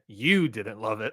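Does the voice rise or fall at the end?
fall. It falls at the end like a flat statement.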